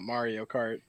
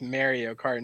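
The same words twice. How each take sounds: First: Mario with an open 'ah', MAR-ee-o; rejected pronunciation, MAR-ee-o. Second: Mario with the vowel of 'marry' or 'mare'; pronounced MARE-ee-o. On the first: Rejecting the other way to co-hosts, Mario as MAR-ee-o. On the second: Defending the Jersey family's way, Mario as MARE-ee-o. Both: Shown as a demonstration. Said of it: "not Mario Kart".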